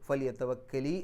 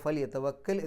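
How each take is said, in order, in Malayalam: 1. ഈ വാക്യം ചേർത്ത i എന്ന സ്വരത്തിൽ അവസാനിക്കുന്നു. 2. ഈ വാക്യം ശുദ്ധമായ l എന്ന വ്യഞ്ജനത്തിൽ അവസാനിക്കുന്നു. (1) "കെസ്റാണാക്കിയത്" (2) "യതവക്കൽ എന്നുള്ളതിൻ്റെ അവസാനത്തിൽ സുക്കൂനിട്ടാൽ"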